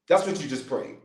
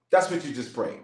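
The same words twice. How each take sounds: The two takes are said the same way.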